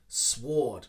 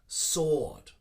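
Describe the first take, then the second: First: The W sound is pronounced at the start. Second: The W sound is silent at the start. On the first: The speaker calls it wrong. "I hear this a lot" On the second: The speaker calls it right. "it is silent. We just simply put sword"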